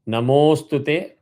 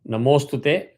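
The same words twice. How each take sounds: First: The vowel is held one extra beat. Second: The vowel is held with no extra length. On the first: "sorry, one avagraha" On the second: "no avagraha"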